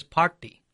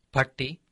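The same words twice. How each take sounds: First: Party with a held "aah" vowel, PAAT-ti; long A. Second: Parti with a short "uh" vowel, PUT-ti. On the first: Giving an example of vowel length, long A in party. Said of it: "with a long A sound". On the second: Giving an example of vowel length, short A in parti. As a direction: keep the first vowel of parti brief. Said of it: "with a short A sound". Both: Shown as a demonstration.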